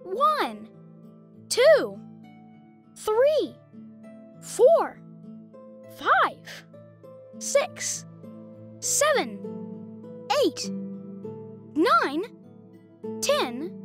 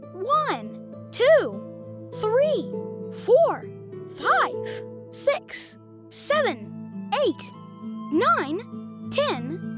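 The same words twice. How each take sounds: First: The numbers are counted at a slow pace. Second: The numbers are counted at a faster pace.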